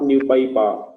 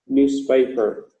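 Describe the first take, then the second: First: The middle s sound is dropped. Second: The middle s sound is clearly pronounced. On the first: The speaker calls it wrong. "not new paper" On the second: The speaker calls it right. "the S sound at the center of the word newspaper"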